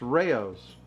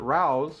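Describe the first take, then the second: First: A 'y' glide separates the two vowels. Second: The vowels run together with no 'y' glide. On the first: The speaker calls it right. "It's Rayo's" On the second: The speaker calls it wrong. "I used to mispronounce it myself. I called it Rao's"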